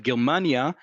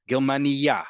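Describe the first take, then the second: First: "Germania" stressed on the MA, ger-MA-nia; second-to-last syllable stress. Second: "Germania" stressed at the end, ger-ma-ni-YA; last-syllable stress. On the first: Teacher contrasting the country's name, "Germania" stressed second to last. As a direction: lean on the middle "ma" in "Germania". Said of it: "emphasis is on the second to last syllable". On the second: Teacher showing the word for a German woman, "Germania" stressed on the last syllable. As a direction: hit the final "ya" of "Germania". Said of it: "the emphasis is on the last syllable".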